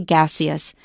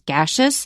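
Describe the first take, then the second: First: The middle is said with an ee sound. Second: The middle is said with a sh sound. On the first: "or you can say" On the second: "the way Chris says it as"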